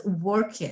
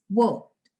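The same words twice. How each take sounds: First: Worked split into two syllables, work-id; worked with an extra id syllable; wrong two syllables. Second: Worked said slowly in one syllable ending in t, workt; worked, one beat with final t; correct one syllable. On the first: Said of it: "it's like two syllables". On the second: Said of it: "So it's worked". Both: Shown as a demonstration.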